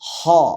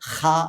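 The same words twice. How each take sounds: First: The h is heavy and deep, mouth rounded. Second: The h is a harsh, scraping throat sound. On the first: The speaker calls it right. "തഫ്ഹീമായി വായ അടഞ്ഞതായ രൂപത്തിൽ ഘനപ്പിച്ച ഒരു ശബ്ദത്തോടുകൂടി" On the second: The speaker calls it wrong. "കഫമൊക്കെ തുപ്പുമ്പോൾ നമ്മൾ ഉണ്ടാക്കുന്ന ശബ്ദമുണ്ട്, ... ശരിയല്ല"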